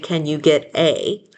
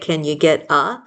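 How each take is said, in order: First: The final 'a' is a full, clear vowel. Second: The final 'a' is reduced to a schwa. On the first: The speaker is reading very precisely. "We don't usually say, ... Maybe when we're reading and, and we're being very precise" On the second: This is ordinary everyday talk. "but when we talk, we just say, ... So that a turns into a schwa"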